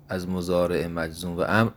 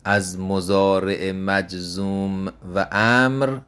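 First: Said in the usual way. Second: از مضارع مجزوم و امر said slowly, word by word; slow emphasis. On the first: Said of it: "repeat at normal pace". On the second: Shown as a demonstration. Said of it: "slow emphatic repeat". (آهسته و با تأکید روی امر)

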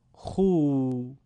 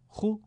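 First: خو as a drawn-out "khuu"; long vowel. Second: خو as a brief "khu"; short vowel. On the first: Teacher reads the madd drill, خو held long. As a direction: stretch خو over two beats. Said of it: "با واو مدی به صورت کشیده". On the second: Teacher reads the damma drill, خو kept short. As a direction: say خو short, one beat. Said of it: "کوتاه تلفظ بکنید". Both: Shown as a demonstration.

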